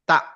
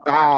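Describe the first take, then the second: First: The throat catch is released with a sharp push. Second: The throat is squeezed and held without release. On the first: The letter would be a hamza. "তখন বলতাম তা, ধাক্কা দিতাম" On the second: The letter is an ain. "চাপ দিয়ে ধরতে হবে এভাবে"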